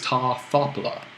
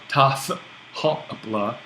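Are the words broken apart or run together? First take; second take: run together; broken apart. First: The words run together without a pause. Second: The words are broken apart by pauses. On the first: The speaker calls it right. "It really is" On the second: The speaker calls it wrong. "to put that break in speaking there ... is crazy"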